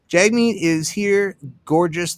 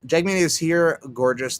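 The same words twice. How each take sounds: First: Mock announcer. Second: Said in the usual way. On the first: Mock announcing Jagmeet's arrival.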